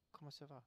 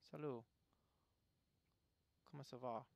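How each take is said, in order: First: Quiet French, "Comment ça va?" said much softer. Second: French accent, spoken a touch softer; French greeting. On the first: Player repeats the French greeting quietly, French accent. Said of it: "Oh, I do know". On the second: Player greets in French while testing accents, French accent. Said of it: "pay attention to the sounds people make". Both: Shown as a demonstration.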